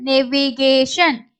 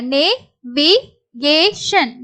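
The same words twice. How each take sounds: First: Said in the usual way. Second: Slow syllables with gaps. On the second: Shown as a demonstration. Teacher introduces the next word, syllable by syllable. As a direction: break "navigation" into four separate pieces.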